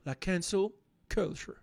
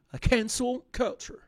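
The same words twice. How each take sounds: First: Said in the usual way. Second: "La cancel culture" said slowly in an English accent, higher. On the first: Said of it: "je vais essayer de le refaire". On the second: Shown as a demonstration. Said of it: "Avec mon accent explosé, je vais essayer de le refaire".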